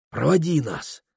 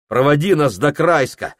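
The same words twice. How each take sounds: First: Pleading. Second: Said in the usual way. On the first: Acted. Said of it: "нежно заговорил Прохор".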